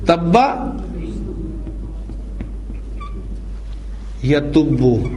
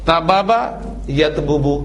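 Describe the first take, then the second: First: The two b sounds merge into one long b. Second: A vowel separates the two b sounds. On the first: This is the actual form after the changes. The speaker calls it right. "क्या बन जाएगा ये चेंजेस के बाद?" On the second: This is the underlying regular form. The speaker calls it wrong. "Normal बनेगा ताबाबा"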